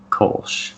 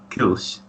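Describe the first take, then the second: First: The word has an American English vowel. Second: The word has a German rounded front vowel. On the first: "the American pronunciation would be Kolsch" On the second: "if you were German, you'd probably say something like Kilsch"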